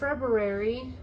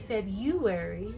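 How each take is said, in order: First: The R after the b is pronounced. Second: The R after the b is dropped. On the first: "I don't say February" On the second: "I say February, so I always forget that dang R"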